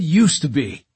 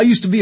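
First: "used" leaned on to correct the listener; stress on USED. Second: Said in the usual way. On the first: A narrator's reading. Katz correcting London about being a scout, stressing "used". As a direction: punch "used" in "used to be". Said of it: "I said used to be".

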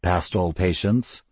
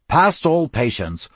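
First: Low, slow and sardonic. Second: Gruff approval. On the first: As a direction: drawl it with dry scorn. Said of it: "in a low, sardonic voice". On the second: Cyril repeats the phrase approvingly. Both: Acted.

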